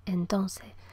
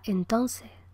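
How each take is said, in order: First: All syllables are said, with final consonants dropped. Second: All syllables are said, with final consonants dropped.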